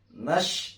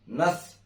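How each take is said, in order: First: It ends in an sh sound. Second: It ends in a th sound. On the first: "jangan nash" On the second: "jangan nath"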